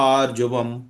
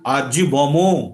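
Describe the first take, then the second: First: The word ends in a bare m sound. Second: The word ends with a full 'mo' syllable. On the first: The speaker calls it right. "যখন আমরা আধখানা ম বলবো তখন এইভাবে বলবো" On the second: The speaker calls it wrong. "আরজি বমো বলবো না"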